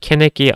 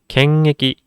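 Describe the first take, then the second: First: The nasal links straight into the next vowel. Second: The nasal is held before the next vowel. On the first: The speaker calls it wrong. "연음 현상이 발생합니다" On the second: The speaker calls it right. "이응 받침을 끌어주셔야 됩니다"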